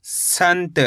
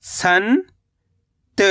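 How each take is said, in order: First: Said in the usual way. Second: संत as long rising "san", pause, "ta"; split syllables. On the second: Shown as a demonstration. Teacher breaking down संत for learners, split syllables. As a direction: stretch संत into two separate syllables. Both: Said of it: "तो मिलके बन जाएगा".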